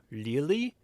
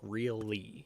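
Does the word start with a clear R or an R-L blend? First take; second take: R-L blend; clear R. First: It starts with a blend of R and L. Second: It starts with a clear R sound. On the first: The speaker calls it wrong. "They can't decide if they're using an R or an L, so it kind of becomes a combination of both" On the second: The speaker calls it right. "it has an R sound in the beginning and an L sound about halfway through"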